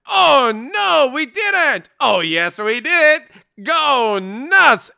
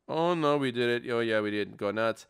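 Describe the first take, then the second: First: It is read with lively excitement. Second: It is read flatly, without excitement.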